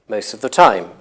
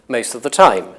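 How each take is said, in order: The two takes are said the same way.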